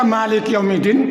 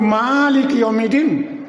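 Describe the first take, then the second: First: The first vowel is said short. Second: The first vowel is drawn out long. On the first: It means kings. The speaker calls it wrong. "Kalau dibaca maliki yaumiddin itu salah" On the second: It means the one who rules over all. The speaker calls it right. "Ma itu panjang"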